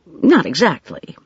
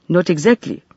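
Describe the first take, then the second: First: "exactly" falling at the end; hesitant woman's denial. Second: Put-on "exactly" rising, as the accented mender; questioning echo. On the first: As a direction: hedge "not exactly" as a statement. Woman hedges her answer. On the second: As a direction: throw "Not exactly" back as a question. Man echoes her words as question. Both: A narrator's reading.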